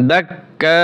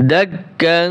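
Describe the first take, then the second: First: "দাক্কা" ending on a long open vowel; one-alif stretch. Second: "দাক কাং" with a long nasal hum at the end; ikhfa. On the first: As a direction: stop on "dak", then draw out "kaa". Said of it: "এক আলিফ টান হবে". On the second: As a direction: hold the "ng" of "কাং" through the nose. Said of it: "ইকফার নিয়ম". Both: Shown as a demonstration.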